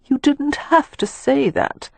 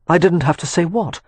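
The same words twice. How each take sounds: First: Put-on high, slow and wounded young woman; Catherine's high hurt voice. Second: Said in the usual way. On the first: A narrator's reading. To Leo on the roof, a high, slow, hurt reproach. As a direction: drag out each word, high and reproachful. Catherine challenges Leo's words.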